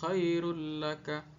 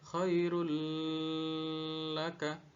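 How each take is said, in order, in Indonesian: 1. Huruf yang digabung dibaca pendek tanpa dengung. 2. Huruf yang digabung dibaca panjang dengan dengung. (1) "dibaca pendek" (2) "tidak boleh dibaca"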